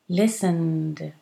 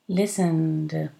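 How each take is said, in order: The two takes are said the same way.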